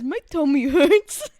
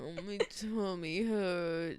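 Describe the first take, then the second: First: Slow, louder pouty complaint; mock whiny. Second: Slow, drawn-out plaintive moan; drawn-out complaint.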